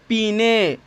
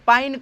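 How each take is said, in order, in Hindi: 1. स्वर की ध्वनि 'ee' जैसी है, और इसे दो अक्षरों में बोला जाता है। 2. स्वर की ध्वनि 'eye' जैसी है, और इसे एक अक्षर में बोला जाता है। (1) "जो लोग नहीं जानते हैं कि शुद्ध उच्चारण क्या करना है, वो लोग इस तरीके से इसका उच्चारण करते हैं" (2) "शुद्ध उच्चारण कैसे होगा"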